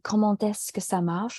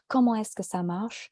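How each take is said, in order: First: The final t links into the next word. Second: The final t stays silent before the next word. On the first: "ça sent mieux quand, quand je dis" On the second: "mais je peux aussi dire"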